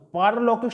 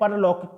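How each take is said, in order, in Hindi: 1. पहला स्वर दीर्घ है। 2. पहला स्वर ह्रस्व है। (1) "तो पारलौकिक सही है" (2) "परलौकिक सही नहीं है"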